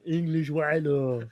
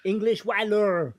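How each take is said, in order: First: Put-on slow laughing French accent; drawn-out mock French accent. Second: Mock French pirate voice, slow; hammed-up French accent. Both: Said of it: "we only hear French accent".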